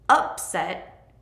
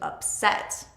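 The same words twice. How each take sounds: First: The stress is on the first syllable. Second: The stress is on the second syllable. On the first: It is a noun. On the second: It is a verb.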